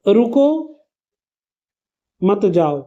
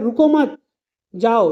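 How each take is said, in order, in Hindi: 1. 'रुको' के ठीक बाद विराम है। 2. 'मत' के ठीक बाद विराम है। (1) "रुको यानी आपको वेट करना है, मत जाओ मतलब जाना नहीं है" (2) "ये रुको के बाद हटा के मत के बाद लगा दूं"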